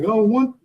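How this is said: It is said in a put-on voice.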